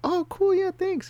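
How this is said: It is said in a put-on girl voice.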